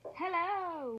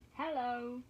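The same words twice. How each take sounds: First: The greeting sounds aggressive and forceful. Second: The greeting sounds gentle and calm.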